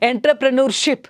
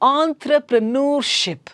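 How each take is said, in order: First: It begins with 'en', following the spelling. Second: It begins with 'on' and ends in 'noorship'. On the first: The speaker calls it wrong. "This is how the students tell" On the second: The speaker calls it right. "this is pronounced as entrepreneurship. ಆಂತ್ರ"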